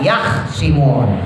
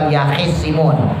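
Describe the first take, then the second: First: No vowel follows kh; the s is single. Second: A vowel follows kh; the s is doubled. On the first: This is one imam's variant reading. "Khoknya disukun" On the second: This is the usual reading. "Kalau tadi kita bacanya yahisimun"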